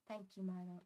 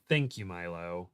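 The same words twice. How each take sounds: First: Soft attempt at Garfield. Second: Lightly voiced Andrew Garfield. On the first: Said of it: "I can't really do Andrew Garfield's very specific voice". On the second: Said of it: "Not in that accent because he's British".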